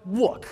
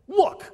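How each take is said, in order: First: Said in the usual way. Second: Sharp angry look. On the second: Acted. Acting the angry son's outburst.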